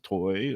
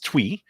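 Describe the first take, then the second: First: The name rhymes with boy. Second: The name rhymes with tree. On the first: The speaker calls it wrong. "some would say toy or toy" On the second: The speaker calls it right. "but it's Twee"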